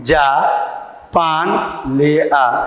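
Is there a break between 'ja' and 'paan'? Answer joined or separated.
separated. There is a short break between ja and paan. Go and bring some paan. "एक आदेश पारित किया गया है कि जाओ भाई जाके पान लेके आओ"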